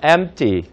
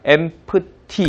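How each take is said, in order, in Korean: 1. 가운데 자음은 가볍게만 쳐요. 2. 가운데 자음을 온전히 세게 발음해요. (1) "중간 자음은 가볍게 치,치시면서" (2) "그렇다고 empty 이렇게 가지는 않고"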